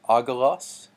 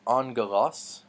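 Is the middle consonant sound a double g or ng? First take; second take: double g; ng. First: The middle sound is two hard g sounds. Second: The middle sound is an ng sound. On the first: The speaker calls it wrong. "just pronounce that G twice" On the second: The speaker calls it right. "really this is angelos"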